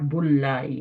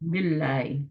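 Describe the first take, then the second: First: The vowel before 'llahi' is u. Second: The vowel before 'llahi' is i. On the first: The speaker calls it wrong. "Not बुल्लाई, है ना, बुरा लगता है" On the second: The speaker calls it right. "बिल्लाई, नॉट बुल्लाई"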